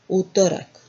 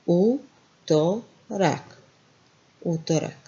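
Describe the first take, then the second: First: Said in the usual way. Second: Utorak spoken very slowly, each syllable apart; slow it right down, U-to-rak. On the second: Shown as a demonstration. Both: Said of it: "Then what we have here?".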